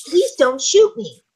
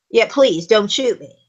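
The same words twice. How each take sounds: First: Slow, higher, pleading line; quivering plea. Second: Calm, dismissive plea; brave, unafraid. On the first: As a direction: beg slowly, a little shaky. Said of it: "yells in a quivering voice". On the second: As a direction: say it like they're not scared. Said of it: "maybe they're brave". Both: Shown as a demonstration.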